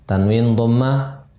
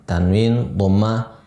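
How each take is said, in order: No difference in how they are said.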